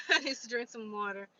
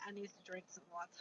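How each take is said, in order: First: Louder, laughing through the line; laughing repeat. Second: Rushed, much softer aside; quick mutter. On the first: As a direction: say it again with a laugh. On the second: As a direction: mumble it fast to yourself. Hot, muttering aside about water. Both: Real, not acted.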